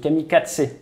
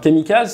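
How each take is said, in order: First: The consonant before the end is a ts sound. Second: The consonant before the end is a z sound.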